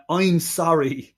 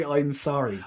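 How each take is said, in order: First: Put-on a slow, drawn-out "I'm sorry" in a botched Deep South accent; Deep South accent parody, very slow; mock Deep South accent. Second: Put-on "I'm sorry" tossed off softer, in a brief Deep South accent parody; quick, quieter jab at the Deep South accent; Deep South accent parody, throwaway; mock Deep South accent. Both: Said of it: "He couldn't say".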